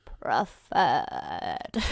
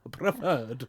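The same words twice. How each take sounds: First: Put-on much lower, very old wizard voice; old Dumbledore. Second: Put-on old English professor. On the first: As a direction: croak it like an ancient wizard. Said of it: "the old one would be like". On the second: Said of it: "You said that like an old English professor".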